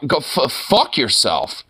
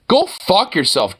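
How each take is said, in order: First: Said in the usual way. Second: Slower and higher, punching "Go fuck yourself"; emphatic, drawn-out "Go fuck yourself"; emphatic repeat. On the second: Real, not acted. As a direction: hit "Go" hard the second time.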